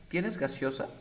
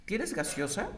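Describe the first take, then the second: First: "¿Tienes gaseosa?" said flat and falling like a statement; flat statement tune. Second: "¿Tienes gaseosa?" said with a rising tune; rising question tune. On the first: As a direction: say it as a plain statement, no lift. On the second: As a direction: ask it with a lifted question melody. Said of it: "estás afirmando". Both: Shown as a demonstration.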